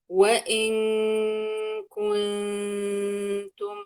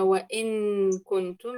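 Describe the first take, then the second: First: The n is hidden and blends toward the k. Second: The n is pronounced fully at its own place. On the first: The speaker calls it right. "إذا قلت وإن كنتم ما أجيب النون من مخرجها" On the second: The speaker calls it wrong. "لا"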